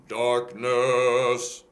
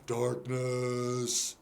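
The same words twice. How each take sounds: First: Bass darkness. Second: Darkness sung dull and throaty. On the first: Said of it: "more like a bass". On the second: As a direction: sing darkness with no edge. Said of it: "very dull, throaty". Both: Shown as a demonstration.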